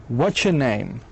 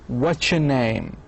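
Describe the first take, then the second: The two takes are said the same way.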